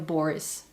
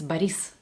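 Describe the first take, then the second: First: The name carries a non-Russian stress pattern. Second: The name carries the Russian stress pattern. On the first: The speaker calls it wrong. "in Russia, it's never Boris" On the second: The speaker calls it right. "it's Boris"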